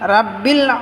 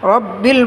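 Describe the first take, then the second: First: The first vowel sounds like an open 'a'. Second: The first vowel sounds like a rounded 'o'. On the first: The speaker calls it wrong. "রাব্বিল হবে না" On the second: The speaker calls it right. "রব্বিল বলতে হবে"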